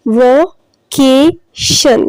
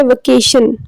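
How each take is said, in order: First: vacation very slowly in three separate parts, va-kay-shun; syllable by syllable. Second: Said in the usual way. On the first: Shown as a demonstration. Teacher showing students the three syllables, vacation split slowly. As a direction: break vacation into va, kay, shun with clear gaps. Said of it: "देखिए ये three इसके parts हैं". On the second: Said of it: "इसमें कितने number of syllables हैं".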